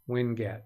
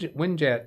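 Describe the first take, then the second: First: The g is hard, as in get. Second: The g is soft, like a j. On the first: The speaker calls it right. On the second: The speaker calls it wrong.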